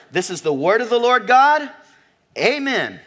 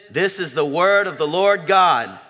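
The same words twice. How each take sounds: First: Proclaimed high and loud; congregational confession. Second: Said in the usual way. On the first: Shown as a demonstration. Pastor modelling the congregation's response, proclaimed loud. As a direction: declare it like a creed for all to repeat. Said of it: "what's our good confession". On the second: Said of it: "our good confession".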